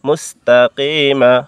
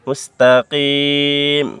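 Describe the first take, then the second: First: The word ends with an added a vowel. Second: The word ends on a held m sound. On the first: The reading continues without stopping. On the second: The reader stops at this word.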